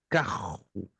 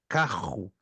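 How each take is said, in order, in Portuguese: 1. Fala-se com sotaque carioca. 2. Fala-se com sotaque carioca.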